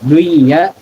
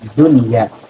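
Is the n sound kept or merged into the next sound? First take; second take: merged; kept. First: The n sound merges into a doubled y. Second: The n sound is kept clearly before y. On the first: The speaker calls it wrong. "ketika dibaca idgham" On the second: The speaker calls it right. "tetap dunya, dibaca izhar"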